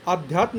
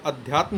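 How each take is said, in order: First: आध्यात्म with long opening aa; wrong form. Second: अध्यात्म with short opening a; correct form. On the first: Teacher rejects the wrong option, आध्यात्म starting "aa". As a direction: lengthen the first vowel of आध्यात्म. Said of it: "नहीं होता है". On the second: Teacher gives the right spelling, अध्यात्म starting short "a". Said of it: "होता है". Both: Shown as a demonstration.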